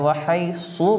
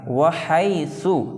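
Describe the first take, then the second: First: The middle consonant is a thick emphatic s. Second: The middle consonant is a soft th sound. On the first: The speaker calls it wrong. "सौद" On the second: The speaker calls it right. "यहाँ पर सा है"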